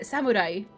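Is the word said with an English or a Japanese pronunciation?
Japanese. It is said with a Japanese-style pronunciation. The speaker calls it right. "I should probably say samurai"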